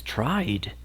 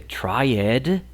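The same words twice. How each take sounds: First: TRIED as one syllable, ending in a plain d; correct pronunciation demo. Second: TRIED wrongly split in two, "try-ED", with a full "ed"; wrong pronunciation demo. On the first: Teacher giving learners the correction, tried as one syllable "tryd". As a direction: say "tried" in one beat, no extra "ed". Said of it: "es tried". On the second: Teacher showing Spanish speakers the mistake, tried as "try-ed". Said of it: "no se dice tried". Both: Shown as a demonstration.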